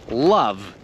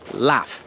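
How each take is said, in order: First: The word ends with a voiced V sound. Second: The word ends with a voiceless F sound. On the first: The speaker calls it right. "It always is pronounced like a V" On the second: The speaker calls it wrong. "pronouncing the V like an F and pronouncing it laugh"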